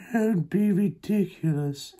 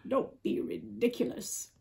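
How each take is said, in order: First: High, slow cat voice; drawn-out, higher feline voice. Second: Cat line, lightly voiced. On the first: Acted. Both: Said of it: "said the cat".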